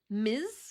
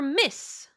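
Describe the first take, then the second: First: The word ends with a buzzing Z sound. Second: The word ends with a hissing S sound. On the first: "Like with a Z sound?" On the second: "With a S, not a Z, a S"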